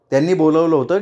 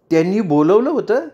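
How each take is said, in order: First: Said in the usual way. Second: होतं lifted high into an amazed question; surprised echo. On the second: Acted. Rajanitai echoing Chandrakala's news in astonishment, surprised rising question. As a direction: echo it back, unable to believe it.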